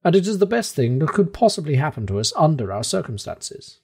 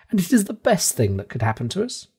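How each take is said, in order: First: Unshaken in the face of disaster; perfectly self-possessed. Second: Higher, disbelieving, rising on is; incredulous echo. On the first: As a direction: professor calmly welcoming the eruption. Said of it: "with an air of perfect self-possession". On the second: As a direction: throw his words back at him. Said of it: "I shouted". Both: A narrator's reading.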